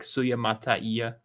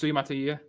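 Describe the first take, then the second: First: The name is said slowly, every vowel sounded. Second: The name is said quickly, vowels run together. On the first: "enunciate every single like" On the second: "like quicker"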